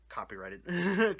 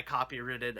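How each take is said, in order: First: "copyrighted" slowed down, with a long "right"; corrected pronunciation. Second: "copyrighted" misspoken with "-ritted" at the end; slipped pronunciation. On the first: Host fixing his own slip, "copyrighted" said slowly as "copy-right-ed". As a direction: say "copyrighted" carefully as "copy-RITE-id". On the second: Host tripping over legal term, "copyrighted" said as "copy-ritted". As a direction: say "copyrighted" as "copy-RIT-id", short i. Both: Real, not acted.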